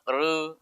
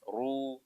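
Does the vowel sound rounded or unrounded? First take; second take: unrounded; rounded. First: The vowel is said without rounded lips. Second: The vowel is said with rounded lips. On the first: The speaker calls it wrong. "ro dibaca doma lalu kemudian bibir kita tidak monyong" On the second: The speaker calls it right. "Harus ru"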